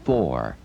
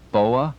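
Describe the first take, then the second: First: "four" with its r sounded, standard American. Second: Southern foa. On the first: Shown as a demonstration. Instructor showing a Southern CBer the correct four, standard pronunciation. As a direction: say "four" plainly with the r. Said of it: "should practice saying four instead of". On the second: Retold or imitated. Instructor imitating a Southern beaver's number four, Southern accent. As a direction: drawl out "foa" like a Southern CBer, no r. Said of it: "a Southern beaver should practice saying".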